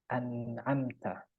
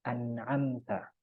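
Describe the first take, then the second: No difference in how they are said.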